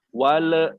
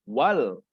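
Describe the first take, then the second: First: The word ends with an added 'e' vowel. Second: The word ends cleanly on the 'l' consonant. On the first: The speaker calls it wrong. "Bapak yang dengar seperti ini kamu bacanya" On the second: The speaker calls it right. "Yang betul adalah"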